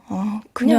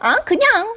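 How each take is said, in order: First: It sounds gloomy and in a bad mood. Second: It sounds light and in a good mood.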